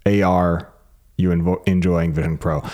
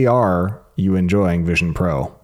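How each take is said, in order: First: The first word is spelled out as letters A-R. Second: The same.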